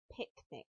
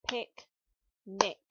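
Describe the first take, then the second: First: Said in the usual way. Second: "Picnic" said louder, split into pic and nic; clearly modelled word. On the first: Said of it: "how many syllables you can hear in". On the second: Shown as a demonstration. Teacher models "Picnic" syllable by syllable for pupils. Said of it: "Let's start with the first syllable".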